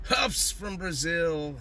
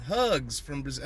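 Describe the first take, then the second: First: "Huffs" said slowly with a hard f sound at the end; misread greeting. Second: "hugs" said plainly with a g sound at the end; corrected greeting. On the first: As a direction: drawl out "Huffs from Brazil" reading it wrong. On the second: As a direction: fix it to "hugs from Brazil". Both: Shown as a demonstration. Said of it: "huffing and hugging is all acceptable".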